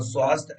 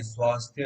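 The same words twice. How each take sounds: First: स्वास्थ्य clipped to svast, final thya dropped; common wrong pronunciation. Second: स्वास्थ्य with the full final thya sounded; correct pronunciation. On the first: Teacher showing students the common slip, clipped स्वास्थ्य. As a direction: say स्वास्थ्य as svast, swallowing the ending. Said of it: "स्वास्थ्य ऐसे बोल देते हैं". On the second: Teacher correcting the class, careful full स्वास्थ्य. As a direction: say स्वास्थ्य fully, landing clearly on thya. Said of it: "परंतु नहीं". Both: Shown as a demonstration.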